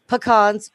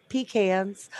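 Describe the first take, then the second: First: "pecans" said puh-KAHNZ; slow "pecans" as puh-KAHNZ; first variant pronunciation. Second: "pecans" said PEE-kanz; slow "pecans" as PEE-kanz; second variant pronunciation. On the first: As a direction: say "pecans" with a "puh" start and an "ah" vowel. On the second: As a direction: say "pecans" with a "pee" start and the vowel of "can". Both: Shown as a demonstration. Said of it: "pecans or pecans".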